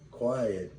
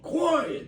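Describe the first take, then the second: First: It is said calmly. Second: It is said in a fed-up, forceful way.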